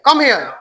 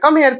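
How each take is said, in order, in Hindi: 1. यह तीखे, आदेश वाले लहजे में कहा गया है। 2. यह नरम, विनम्र लहजे में कहा गया है। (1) "ऑर्डर है" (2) "रिक्वेस्ट है"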